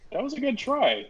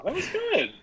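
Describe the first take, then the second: First: Said in the usual way. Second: High teasing praise. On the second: Real, not acted.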